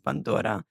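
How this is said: It is said the Palestinian way, bandora.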